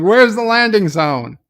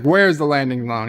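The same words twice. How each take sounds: First: "Where's the landing zone?" barked higher and louder; demanding shout. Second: Said in the usual way. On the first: Retold or imitated. Interrogator loses patience and yells at the captive. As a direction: hammer the question home, louder.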